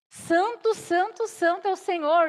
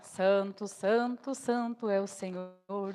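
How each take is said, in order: First: It is said loudly and fervently, like a proclamation. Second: It is said in a flat, mechanical voice. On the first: The angels are crying out in awe to each other. The speaker calls it right. "clamam uns aos outros... significa gritaria" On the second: This is not how the angels speak. The speaker calls it wrong. "eles não falam com a voz da inteligência artificial, não"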